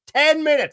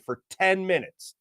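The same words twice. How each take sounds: First: "ten minutes" punched high and loud; emphatic repeat. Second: Said in the usual way. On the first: Real, not acted. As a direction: hit "ten" hard, much higher, then fall.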